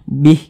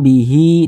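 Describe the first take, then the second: First: The word ends on h with no vowel. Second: The word ends with a long vowel after h. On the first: The reader stops after this word. "Kita berhenti di mad silah qashirah ini kan bih, tidak berfungsi dia" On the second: The reader continues without stopping. "kita teruskan ya'idzukum bihi ... huruf H ini dibaca panjang"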